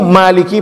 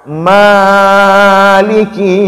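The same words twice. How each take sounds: First: The first vowel is held for two beats. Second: The first vowel is stretched well beyond two beats. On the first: The speaker calls it right. "dua harokat" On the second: The speaker calls it wrong. "itu sudah sudah salah itu"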